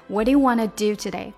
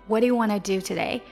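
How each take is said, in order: Both takes have the same delivery.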